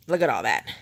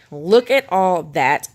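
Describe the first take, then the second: First: Said in the usual way. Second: Slow, punched "Look at all that" with the voice raised; slow, louder emphasis. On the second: Shown as a demonstration. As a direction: savour every word of "Look at all that", louder and drawn out. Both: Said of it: "I need rehab".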